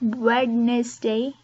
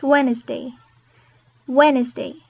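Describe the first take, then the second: First: Wednesday said "wed-nis-day", slowly, the d sounded; Wednesday with the d spoken; wrong Wednesday. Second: Wednesday said "wenz-day", silent d; Wednesday, drop the d. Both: Shown as a demonstration.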